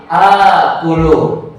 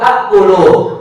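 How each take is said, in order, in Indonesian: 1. Vokal pertama dipanjangkan. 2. Vokal pertama pendek dan terputus. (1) "untuk memudahkan bahasa mengucapkannya menjadi akulu"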